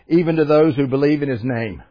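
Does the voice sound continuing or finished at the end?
finished. The voice drops to a final, finished ending. The sentence ends here. The speaker calls it wrong. "I read it as if it ended with a period"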